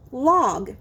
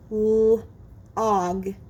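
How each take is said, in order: First: Said in the usual way. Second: Held L, pause, then "og"; segmented sounds. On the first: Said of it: "you will blend the sounds". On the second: Shown as a demonstration. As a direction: say "L-og" in two separated parts. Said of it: "I will say the sounds in a word".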